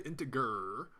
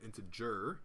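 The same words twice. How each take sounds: First: The g is hard, like a growl. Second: The g is soft, like a j. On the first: The speaker calls it wrong. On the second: The speaker calls it right.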